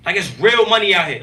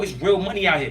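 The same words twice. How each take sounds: First: Real hit louder with a falling tune; stress on real. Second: Said in the usual way. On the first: Real, not acted. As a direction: lean hard into the word real.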